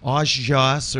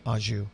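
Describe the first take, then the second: First: The word is said in a garbled, mangled way. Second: The word is said in the standard way. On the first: This imitates how someone else said it. The speaker calls it wrong. "couldn't produce or pronounce that that that sauce. It was like Aujas" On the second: This is how it should be said. The speaker calls it right. "feed her the correct pronunciation"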